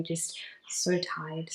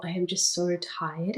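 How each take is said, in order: First: Slow, soft, worn-out sigh of tired; exhausted. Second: Said in the usual way. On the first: Real, not acted. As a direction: let it sag, heavy and sleepy. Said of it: "that's how I've been feeling".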